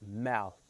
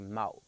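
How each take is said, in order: First: The word ends with a clear th sound. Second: The word ends with a d or t sound. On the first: "say like mouth" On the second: "they always say mouth"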